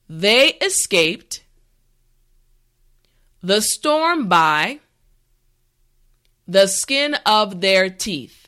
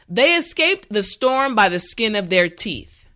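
First: The sentence is said slowly and carefully. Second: The sentence is said at a natural pace. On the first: "this time repeat after me" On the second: "the last time at a regular pace"

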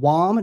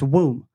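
First: The vowel sounds like the vowel in bomb. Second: The vowel sounds like the vowel in room. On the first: The speaker calls it wrong. "Replace the B with a W. What is it?" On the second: The speaker calls it right. "No, it's womb"

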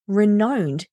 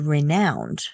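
First: The middle vowel sounds like 'oh'. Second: The middle vowel sounds like 'cow'. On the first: It is not a real word. The speaker calls it wrong. "They know that renowned doesn't make sense" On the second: It is the real word meaning famous. The speaker calls it right. "but they also know there's a word renowned"

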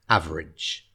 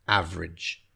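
The two takes are said the same way.

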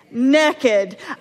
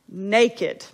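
First: The A vowel is short. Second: The A vowel is long. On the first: This is the southern way of saying it. "there's another way of saying it" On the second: This is the northern way of saying it. "it is with a long A sound"

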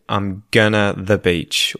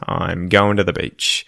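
First: Going to is reduced to gonna. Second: Going to is reduced to goinda. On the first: The speaker calls it wrong. "you would never say" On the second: The speaker calls it right. "you would say goinda"

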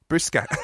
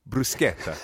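First: It is said in a West Country accent. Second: It is said in the speaker's ordinary accent.

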